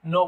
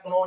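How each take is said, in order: First: "no" said plainly as no, no k sound; silent k. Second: "know" with the k pronounced, like k-no; wrong take of "know", k sounded; sounding the k wrongly. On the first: Teacher gives students the right version, k silent. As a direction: correct "know", just no. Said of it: "बोलना है". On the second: Teacher shows students the mistake, k pronounced. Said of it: "नहीं बोलना है आपको". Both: Shown as a demonstration.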